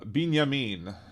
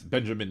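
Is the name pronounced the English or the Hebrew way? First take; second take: Hebrew; English. First: The name is said with Hebrew pronunciation. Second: The name is said with English pronunciation.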